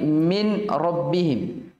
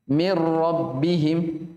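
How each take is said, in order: First: A distinct n is pronounced before the r. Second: The n merges fully into the following r. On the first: The speaker calls it wrong. "Jadi bukan lagi min rabbihim" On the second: The speaker calls it right. "Langsung langsung masuk di ra"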